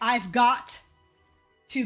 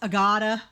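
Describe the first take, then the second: First: Every word is said fully and separately. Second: The words are mashed together into one lump. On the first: "instead of saying" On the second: "it's a gotta. Like, it's bad"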